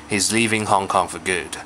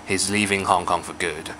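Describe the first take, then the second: First: The word 'for' is weak and reduced. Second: The word 'for' is weak and reduced.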